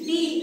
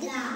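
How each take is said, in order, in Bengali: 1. স্বরধ্বনিটি দীর্ঘ 'ee' ধ্বনি। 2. স্বরধ্বনিটি ছোট 'uh' ধ্বনি। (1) "উচ্চারণটা হবে ডি ডি" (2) "কনসোনেন্ট তখন বলবো দয়া করে দা"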